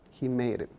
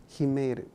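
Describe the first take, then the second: No difference in how they are said.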